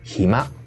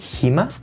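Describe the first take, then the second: First: The pitch falls at the end. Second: The pitch rises at the end. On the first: It is given as an answer. "cuando es respuesta baja" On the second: It is asked as a question. "cuando es pregunta, la entonación sube"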